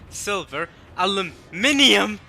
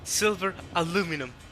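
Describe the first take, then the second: First: The last word has five syllables, with an extra vowel. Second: The last word has four syllables, without the extra vowel. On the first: The speaker calls it right. "I refuse to say it the way Americans say it. I don't care" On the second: The speaker calls it wrong. "Okay, fine"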